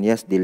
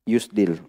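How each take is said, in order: First: The first vowel is an 'a' sound. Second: The first vowel is an 'u' sound. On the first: The speaker calls it wrong. "bukan yasdil" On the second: The speaker calls it right. "yusdil bukan yasdil"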